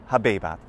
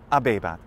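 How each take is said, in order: First: The word begins with an audible h sound. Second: The word begins directly with a vowel. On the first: "I say habebat" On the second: "you say abebat, because H's are silent in ecclesiastical pronunciation"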